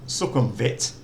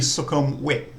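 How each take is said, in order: First: The consonant before the last vowel is a V. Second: The consonant before the last vowel is a W. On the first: This is how the spelling suggests it is said. The speaker calls it wrong. "when you see things like um" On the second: This is how it is really said in Thai. The speaker calls it right. "it's really"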